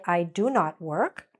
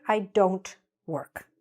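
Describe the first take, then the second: First: Said in the usual way. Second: "don't" said slowly as one syllable; slow clear contraction. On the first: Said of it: "It is correct to say". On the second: Shown as a demonstration. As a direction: model "don't" slowly, as one joined word. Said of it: "but usually we'll say".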